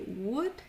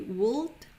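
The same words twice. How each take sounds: First: The L sound is silent in the word. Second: The L sound is pronounced in the word. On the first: The speaker calls it right. "but we will say would" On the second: The speaker calls it wrong. "we don't pronounce the O and we don't pronounce the L. So we won't say would"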